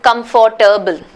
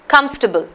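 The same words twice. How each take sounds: First: The second syllable is pronounced, giving four syllables. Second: The second syllable is dropped, giving three syllables. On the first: The speaker calls it wrong. "Nobody says it that way" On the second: The speaker calls it right. "the second syllable is almost not even pronounced"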